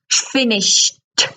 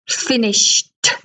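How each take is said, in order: First: The ending is said as a short t sound. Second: The same.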